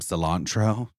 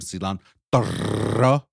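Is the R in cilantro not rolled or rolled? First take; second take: not rolled; rolled. First: The R is said without a roll. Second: The R is said with a roll. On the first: The speaker calls it wrong. "if I don't say words correctly" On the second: The speaker calls it right. "Got to roll that R for the queen"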